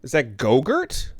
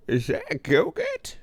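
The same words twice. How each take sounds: First: Said in the usual way. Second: Much higher, slow silly voice. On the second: Shown as a demonstration. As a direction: squeak Go-Gurt slowly, playfully.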